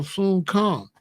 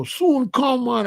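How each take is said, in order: First: Said in the usual way. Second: Much higher, lilting Jamaican accent; mock Jamaican accent. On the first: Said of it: "I go". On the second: Shown as a demonstration. Showing listeners what he avoids, high Jamaican accent. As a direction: exaggerate it like a Jamaican. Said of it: "But I don't go".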